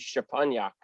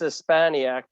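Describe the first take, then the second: First: The surname is said with a Polish pronunciation. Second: The surname is said with an American pronunciation. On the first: This is how the name would be said in Poland. "if we were in Poland" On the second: This is how the name is said in the States. "because we're here in the States"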